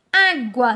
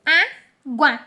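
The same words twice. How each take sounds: First: Said in the usual way. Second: ÁGUA broken as "á... gua"; two separate beats on água, gua in one piece; split into syllables. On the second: Shown as a demonstration. Teacher pointing out the division, syllable by syllable. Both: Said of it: "elas ficarão juntinhas".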